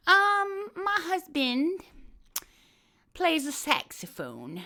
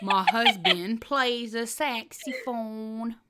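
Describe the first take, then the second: First: Slow, higher mock Southern lady; Hillary Clinton impression. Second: Very slow, stretched mock drawl; Hillary Clinton impression. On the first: Doing Hillary for a friend, slow mock drawl. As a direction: drag it out like a Southern belle. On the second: Retrying Hillary for her friend, slow drawl. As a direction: savor every syllable. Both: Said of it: "Hillary Clinton".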